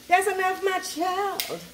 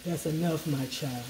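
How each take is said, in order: First: A touch of a gentle elder's higher voice; lightly voiced wise ancestor; ancestors' voice. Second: Much lower, softer, grave Oprah voice; deep, hushed solemn matriarch. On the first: Telling her viewers when to stop seasoning, a hint of an elder's voice. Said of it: "Let your ancestors say". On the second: Retold or imitated. Imitating Oprah playing a solemn matriarch, low and hushed. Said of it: "let's say like Oprah".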